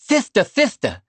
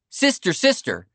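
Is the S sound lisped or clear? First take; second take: lisped; clear. First: The S sounds come out as a TH sound. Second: The S sounds are pronounced as clear S sounds. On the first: "Winthrop's lisp"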